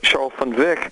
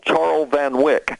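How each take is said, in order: First: The last syllable starts with a V sound. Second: The last syllable starts with a W sound. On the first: This is how the man himself says it. The speaker calls it right. "it's actually pronounced" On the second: This follows the written spelling. The speaker calls it wrong. "In in the way it's written, he always gets called Charles Van Wyck"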